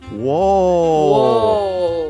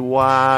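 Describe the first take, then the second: First: The vowel is a rounded 'oh' sound. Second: The vowel is an open 'ah' sound. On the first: The speaker calls it right. "it's pronounced whoa. And you must say it like that" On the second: The speaker calls it wrong. "You cannot say wah or anything like that"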